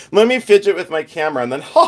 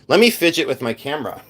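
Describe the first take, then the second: First: Fast, with put-on giggles breaking in; fake-laugh your way through the line. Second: Said in the usual way. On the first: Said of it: "I'm gonna laugh sporadically". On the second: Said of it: "And then let me fake laugh".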